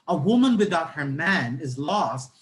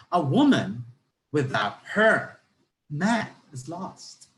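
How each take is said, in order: First: "A woman without her man is lost" as one connected phrase, falling at the end; joined-up sentence intonation. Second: "A woman", pause, "without her" rising, pause, "man is lost" slowly; changed intonation with pauses. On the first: Teacher showing first reading of the sentence, one unbroken falling phrase. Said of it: "with the proper intonation". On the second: Teacher changing the meaning by intonation, slow phrases split by pauses. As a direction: break after "woman" and after "her", drawing out each part. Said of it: "What if I change my intonation into this?".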